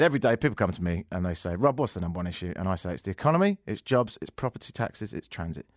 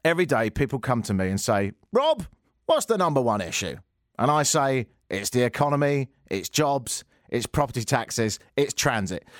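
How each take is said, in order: First: Mimicking Rob Ford. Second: Said in the usual way. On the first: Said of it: "But anyway, he said". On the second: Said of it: "This is word for word".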